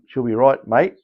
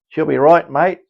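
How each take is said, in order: First: It is said in a plain accent. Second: It is said in a broad Australian accent.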